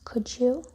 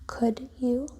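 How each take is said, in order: First: The d and y merge into a j sound. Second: The d and y stay separate sounds.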